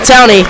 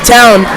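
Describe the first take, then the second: First: The name is said with two syllables. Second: The name is said with one syllable. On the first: The speaker calls it wrong. "not Towney" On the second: The speaker calls it right.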